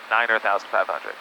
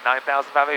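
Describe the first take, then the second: First: The first number is two syllables, niner. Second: The first number is one syllable, nine. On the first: The speaker calls it right. "you say niner thousand five hundred" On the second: The speaker calls it wrong. "you don't say nine thousand five hundred"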